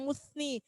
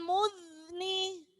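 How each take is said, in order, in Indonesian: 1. Konsonan tengahnya bunyi s yang desis. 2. Konsonan tengahnya bunyi z yang berdengung.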